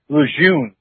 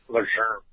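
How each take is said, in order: First: The name is said with an American pronunciation. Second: The name is said with a French pronunciation. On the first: "That's the American way" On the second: "that's the first time I ever said his name right"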